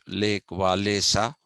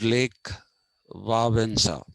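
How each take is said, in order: First: The name is said with English-style sounds. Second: The name is said with Polish-style sounds. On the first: The speaker calls it wrong. "his name is actually not pronounced" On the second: The speaker calls it right. "It is pronounced"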